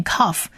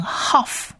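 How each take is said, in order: First: "kaf" with a hard K at the start. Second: "haf" with a breath-like H sound replacing the K. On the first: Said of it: "我们就不是念kaf". ("kaf" 开头发 K 音) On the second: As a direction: say "haf" slowly, opening on H. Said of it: "而是念haf". ("haf" 开头改发 H 音) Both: Shown as a demonstration.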